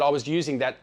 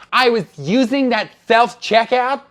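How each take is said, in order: First: Said in the usual way. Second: Loud, high, slow lisped imitation, "self" as "thelf"; exaggerated complainer's voice, "self" turned to "thelf"; mocking lisp. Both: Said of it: "she didn't say it like that".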